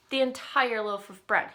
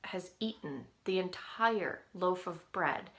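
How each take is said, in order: First: "The entire loaf of bread" said much louder, "The" hit hard; louder disbelieving repeat of the bread story; emphatic repeat. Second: Said in the usual way. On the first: Retold or imitated.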